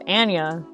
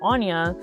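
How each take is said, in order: First: The name is said rhyming with panda. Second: The name is said without rhyming with panda. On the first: The speaker calls it right. "if you do pronounce my name correctly" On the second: The speaker calls it wrong. "if you pronounce it Anya instead of Anya, then obviously there's no rhyme scheme there, which is incorrect"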